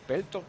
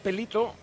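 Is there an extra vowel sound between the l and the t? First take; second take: no; yes. First: The l goes straight into the t. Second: An extra i vowel is sounded after the l. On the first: "Sí, pero es muda" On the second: "¿La J no es una I?"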